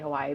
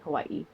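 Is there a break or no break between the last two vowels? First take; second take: no break; break. First: The last two vowels run together smoothly. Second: A short break separates the last two vowels. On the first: This is the speaker's usual mainland way. "I always still say Hawaii" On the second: This is the local island way. "there's a mark between that the two eyes, and that's supposed to be like a space"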